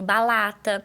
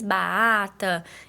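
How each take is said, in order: First: The r is replaced by an l sound. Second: The r sound is left out entirely. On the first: "ela faz a troca do som, que geralmente é pelo L" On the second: "Ou ela faz a omissão"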